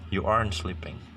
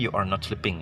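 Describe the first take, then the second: First: Are and not merge into one syllable. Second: Every word is said in full, uncontracted.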